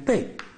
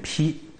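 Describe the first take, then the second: First: The syllable is pronounced bei. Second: The syllable is pronounced pi. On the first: The speaker calls it wrong. "这个字不念背" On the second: The speaker calls it right. "念披"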